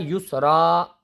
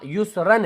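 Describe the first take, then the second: First: The word ends with a long a sound. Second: The word ends with an -an sound. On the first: The reader stops at the end of the verse. "युसरन से आयत करने पर बन जाएगा युसरा" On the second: The word is read without stopping on it. "युसरन है"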